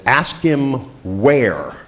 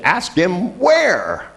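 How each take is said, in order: First: Raised pitch, words drawn far apart; slow instruction. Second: Much higher, very drawn-out phone instruction; insistent repeat. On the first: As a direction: give a slow, deliberate phone instruction. First instruction down the phone. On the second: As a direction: stretch each word high for a baffled listener. Repeats instruction after caller's "What?. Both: Retold or imitated.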